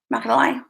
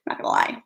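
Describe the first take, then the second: First: Said in the usual way. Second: Whispered. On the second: Real, not acted.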